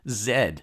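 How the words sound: The letter is said the British way. "That's the British pronunciation"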